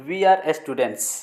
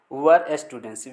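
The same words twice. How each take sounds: First: Said in the usual way. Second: "Were students" with we are blended into one syllable "were"; contracted we're. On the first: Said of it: "Were students". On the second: Shown as a demonstration. Teacher showing students the contracted we're. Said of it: "we are हो गया, were students".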